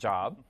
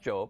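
First: It sounds like the everyday word 'job'. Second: It does not sound like the everyday word 'job'. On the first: It means employment. The speaker calls it wrong. "It's not Job, right? So, it's not about jobs" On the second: It names the biblical man. The speaker calls it right. "It's pronounced Job"

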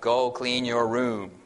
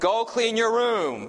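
First: It is said at a normal, lower volume. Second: It is said at a higher volume.

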